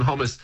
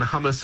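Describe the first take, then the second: First: Second hummus with an O vowel; contrasted pronunciation. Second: First hummus with an UH vowel; contrasted pronunciation. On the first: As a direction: say hummus as "HOM-us". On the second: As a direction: say hummus as "HUM-us". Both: Shown as a demonstration. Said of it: "the way that different vowels are pronounced".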